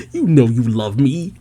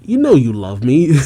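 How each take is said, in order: First: Put-on coy voice, rising at the end; playful mimicked insistence; teasing repeat. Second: Playfully indignant, rising at the end; lightly acted pushy demand; mock angry insistence. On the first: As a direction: tease it out after a laugh. Repeats Jinny's line after laughing. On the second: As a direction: insist with put-on annoyance. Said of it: "Jinny angrily says".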